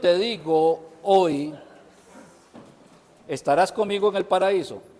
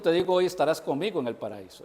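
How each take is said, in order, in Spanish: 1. La pausa cae justo después de la palabra "hoy". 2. La pausa cae justo antes de la palabra "hoy". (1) "Ahí puse una coma" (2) "Esa coma no existe"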